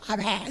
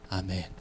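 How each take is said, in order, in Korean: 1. 'amen'은 크고 힘 있게 말합니다. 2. 'amen'은 작게, 끝을 흐리며 말합니다. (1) "아멘이 제일 작으면 안 되는 거예요 ... 이렇게 가는 게 맞는 거예요" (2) "이렇게 이야기하잖아요"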